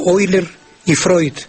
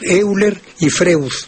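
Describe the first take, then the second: First: The 'eu' is pronounced like 'oi'. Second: The 'eu' is pronounced like 'e-u'.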